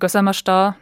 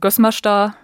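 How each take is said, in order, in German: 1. Der Name hat eine zusätzliche Silbe in der Mitte. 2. Der Name lässt die Silbe in der Mitte weg. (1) "das wäre auch meine Ausdrucksweise" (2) "also ohne diese eine Silbe in der Mitte"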